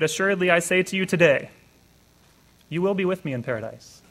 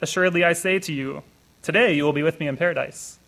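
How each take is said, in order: First: The pause comes after the word today. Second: The pause comes before the word today.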